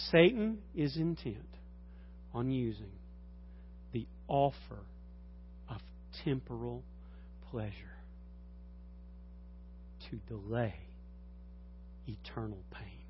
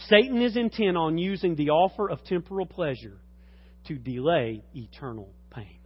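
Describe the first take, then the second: First: Slow, deliberate, each phrase apart; slow emphatic repeat. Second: Said in the usual way. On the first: Real, not acted. Preacher repeating the key sentence slowly to the congregation. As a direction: spell it out word by word, fading softer. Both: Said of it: "Please hear me".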